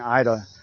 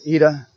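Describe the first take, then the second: First: The first vowel sounds like 'eye'. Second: The first vowel sounds like 'ee'.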